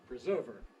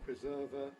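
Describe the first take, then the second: First: It is said in an American accent. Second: It is said in a British accent. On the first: "American preser preserver" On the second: "We put the British one first"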